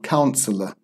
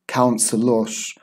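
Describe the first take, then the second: First: The ending is a plain vowel with no R. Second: The ending has a strong, rough R sound. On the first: The speaker calls it right. "It's it's just pronounced uh. There's no R" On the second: The speaker calls it wrong. "it's not pronounced like the Turkish teachesh"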